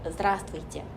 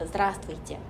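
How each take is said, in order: First: The pitch drops sharply downward. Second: The same.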